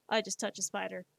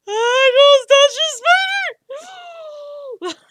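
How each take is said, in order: First: Said in the usual way. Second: Loud, high, drawn-out mock shriek; mock freak-out. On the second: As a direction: freak out at full volume, hammed up. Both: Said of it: "I will freak out".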